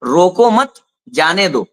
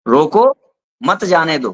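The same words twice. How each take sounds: First: रोको मत together, then जाने दो; pause after मत. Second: रोको set apart, then मत जाने दो together; pause after रोको. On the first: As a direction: break right after मत, setting जाने दो apart. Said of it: "उन्होंने ये समझ लिया". (रोको मत के बाद विराम, फिर जाने दो) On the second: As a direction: break right after रोको, joining मत to जाने दो. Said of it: "उसने कोई कॉमा नहीं लगाया". (रोको के बाद विराम, फिर मत जाने दो एक साथ) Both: Shown as a demonstration.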